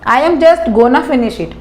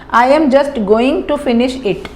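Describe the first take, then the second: First: 'Going to' is reduced to 'gonna'. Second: 'Going to' is said in full, two words.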